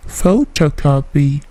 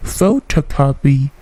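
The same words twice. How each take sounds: The two takes are said the same way.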